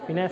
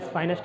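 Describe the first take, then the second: First: फिनेंस said as "fi-NESS"; correct pronunciation. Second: फाइनेंस said as "FINE-ess"; memory-aid mispronunciation. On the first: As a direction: begin फिनेंस with a short "fi". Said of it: "इसको pronounce करते हैं फिनेंस". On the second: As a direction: begin फाइनेंस with the word "fine". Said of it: "pronunciation पे ध्यान नहीं देना". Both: Shown as a demonstration.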